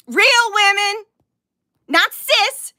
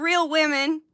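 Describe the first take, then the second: First: "Real women" louder and higher, punched out; emphatic insistence. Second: Said in the usual way. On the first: Real, not acted. Streamer correcting the term, "Real women" loudly insistent. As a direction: hit "Real women" and "not cis" hard, separately. Repeats own words to insist.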